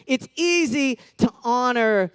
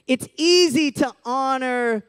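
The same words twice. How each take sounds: The two takes are said the same way.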